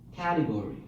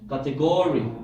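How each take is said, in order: First: The stress is on the first syllable. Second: The stress is on the third syllable. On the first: The speaker calls it right. "How about the first syllable?" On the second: The speaker calls it wrong. "How the third syllable?"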